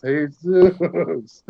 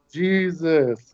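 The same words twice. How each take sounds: First: "Jesus" drawn out as Spanish hay-SOOS; Spanish pronunciation. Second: "Jesus" drawn out as English JEE-zus; English pronunciation. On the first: Actor revealing his tattoo to the star, "Jesus" as Spanish hay-SOOS. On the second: Actor revealing his tattoo to the star, "Jesus" as English JEE-zus. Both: Retold or imitated. Shows tattoo, says name both ways.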